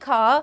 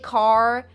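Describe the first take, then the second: First: The final R sound is dropped. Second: The final R sound is clearly pronounced. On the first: "Like I say ka" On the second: "You guys use the R sound"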